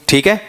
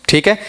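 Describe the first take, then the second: No difference in how they are said.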